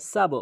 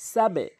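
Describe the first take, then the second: First: "সাব" with a rounded bounce, "sabo"; common mispronunciation. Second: "সাবে" with b bounced downward; correct qalqala. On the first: Teacher shows most people's mistake, "সাব" bounced as sabo. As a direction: end "সাব" on an o-coloured b. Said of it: "ভুল করে বলে". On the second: Teacher models the rule, "সাবে" with downward bounce. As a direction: push the b of "সাবে" into a short e-like echo. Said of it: "নিচের দিকে হবে". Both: Shown as a demonstration.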